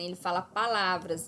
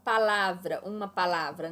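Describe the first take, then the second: First: Said in the usual way. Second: Palavra said firmly as singular, falling; the contrasting singular palavra, stressed; stressing singular palavra. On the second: Shown as a demonstration. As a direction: lean on palavra as just one. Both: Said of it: "ele não fala assim".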